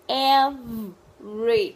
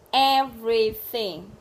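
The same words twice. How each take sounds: First: "Everything" split up, loud, with a held V; drawn-out V. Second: "Everything" slow and loud but connected; whole word, clearly. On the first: Teacher drilling the V sound, word broken apart. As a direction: stretch the v in "Everything", then finish slowly. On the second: Teacher drilling the V sound, word said whole. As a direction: say "Everything" in one piece, deliberately. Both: Shown as a demonstration.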